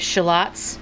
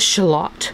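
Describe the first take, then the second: First: The word is said in the speaker's usual accent. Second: The word is said in a fancy imitated accent.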